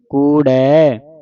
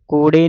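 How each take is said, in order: First: The word ends in an 'ai' vowel. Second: The word ends in a plain 'e' vowel. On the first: The speaker calls it right. "ਕੂੜੈ ਕਹਿਣਾ ਹੈ ਦਲਾਵਾਂ ਦੇ ਨਾਲ" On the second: The speaker calls it wrong. "ਕੂੜੇ ਨਹੀਂ ਕਹਿ ਦੇਣਾ"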